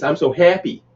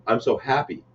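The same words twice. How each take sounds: First: "happy" with a raised vowel, like "heppy"; higher, say "happy" as "heppy"; other town's HAPPY. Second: "happy" with an open "a", softer; his own HAPPY. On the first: Retelling a stranger reading his shirt aloud, "happy" as "heppy". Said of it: "you say happy". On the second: Repeating the shirt's line his own way, open "happy". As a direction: say "happy" quietly with an open vowel. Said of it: "I say happy like this". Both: Retold or imitated.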